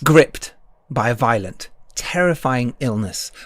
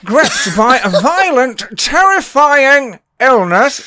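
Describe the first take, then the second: First: It is said in a dramatic trailer-announcer voice. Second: It is said in a comic character voice. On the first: "doing it in a proper paid-for advertising voice" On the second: "in my Partridge voice"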